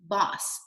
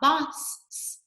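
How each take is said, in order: First: The final s sound is said once. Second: The final s sound is said twice. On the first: The speaker calls it right. "you only say it one time" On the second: The speaker calls it wrong.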